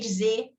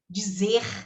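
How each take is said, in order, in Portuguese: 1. O som do r final é apagado. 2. O som do r final é claramente pronunciado. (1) "A gente fala" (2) "eu marquei o R porque nós não falamos isso"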